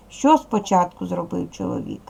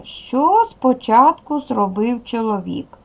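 First: Said in the usual way. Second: Slow, deliberate classroom read-out of the question; slow model reading. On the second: Shown as a demonstration. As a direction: read it out slowly for pupils, stretching the words. Teacher models reading, then repeats.

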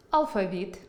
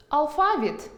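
First: Алфавіт stressed on the middle а, алфа́віт; stress on the middle syllable. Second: Алфавіт with stress on the final і, алфаві́т; stress on the last syllable. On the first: Teacher giving the second variant алфа́віт. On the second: Teacher demonstrating алфаві́т to students. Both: Shown as a demonstration. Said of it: "Наприклад".

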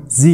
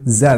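First: Z said as "zee"; American letter name. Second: Z said as "zed"; British letter name. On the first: Teacher shows the American name of the letter, Z as "zee". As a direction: say Z the American way, ending in a long ee. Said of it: "باللهجة الأمريكية بنقول عنه". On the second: Teacher gives the British English option, Z as "zed". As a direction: say Z the British way, with a short e and final d. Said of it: "أما بالبريتش إنجليش فيك تقول". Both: Shown as a demonstration.

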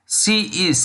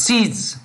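First: Said in the usual way. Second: "sees" said as one syllable; "sees", one drawn word with a z ending; contracted "she is". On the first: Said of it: "in general, full form before contraction". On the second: Shown as a demonstration. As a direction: run she and is together into "sees". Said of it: "We say sees".

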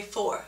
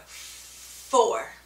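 First: Said in the usual way. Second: Clearly demonstrated, louder "four" with breathy F; exaggerated F sound. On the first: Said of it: "Place your top teeth on your bottom lip". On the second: Shown as a demonstration. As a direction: push the air out hard on the F of "four". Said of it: "and say four".

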